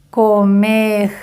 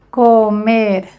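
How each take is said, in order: No difference in how they are said.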